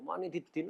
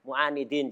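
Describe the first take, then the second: First: The word ends with an added -diddin syllable. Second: The word ends in a single short -din. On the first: The speaker calls it wrong. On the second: The speaker calls it right.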